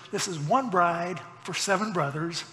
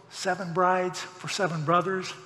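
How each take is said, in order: First: "one" picked out as the twist; stress on one. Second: Said in the usual way. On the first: Shown as a demonstration. Preacher twisting an old musical title, stress on "one". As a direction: lean on "one" against the title.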